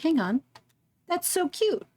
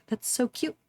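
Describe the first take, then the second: First: High, delighted coo. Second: Said in the usual way. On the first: Real, not acted. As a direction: melt over something cute. Cooing at cute map sprite.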